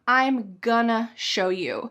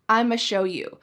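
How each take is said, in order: First: Going to becomes gonna, with the g sound. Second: Going to shrinks to a single ma sound. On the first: "Sometimes we say, I'm gonna" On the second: "the ultra reduction"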